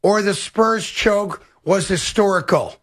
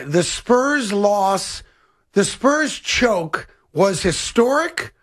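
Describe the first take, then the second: First: Slow, word by word, "historical" falling at the end; dictated second option. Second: Very slow, word by word, "historic" rising; dictated question wording. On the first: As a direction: dictate it slowly and drop the pitch on "historical". Wording the question exactly. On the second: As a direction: dictate it slowly and lift the end of "historic". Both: Shown as a demonstration.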